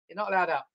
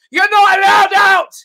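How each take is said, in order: First: Said in the usual way. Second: Loud, slow, high barked order; mock shout. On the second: Comic shout at latecomers stuck in traffic. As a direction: yell it like a bouncer barring the door.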